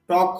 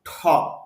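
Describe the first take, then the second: First: The t is said without a puff of air. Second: The t is said with a puff of air. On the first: The speaker calls it wrong. "এই জন্য টক হবে না" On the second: The speaker calls it right. "উচ্চারণ হবে ঠক। মুখ থেকে অতিরিক্ত বাতাস বের হবে।"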